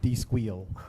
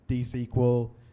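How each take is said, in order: First: The end is said as the word squeal. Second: The end is said as the word sequel.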